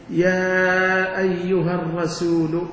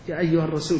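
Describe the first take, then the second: First: Slow, stretched call with every vowel held long; drawn-out call. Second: Said in the usual way. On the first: Shown as a demonstration. Teacher stretching the Quran's call to show its warnings, slow and drawn out. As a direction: stretch out the call so each warning sound rings. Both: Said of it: "كم استعمل منبه في هذا النداء".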